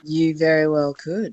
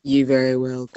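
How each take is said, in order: First: A hint of a bad guy judge. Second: Low, menacing villain; scary bad guy voice. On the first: Guest judge playing critic for the radio hosts, mild bad guy voice. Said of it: "that was a great bad guy voice". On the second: Guest judge trying the line over for laughs, scary bad guy voice. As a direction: drop it lower into a scarier villain. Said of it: "too scary. I found it scary".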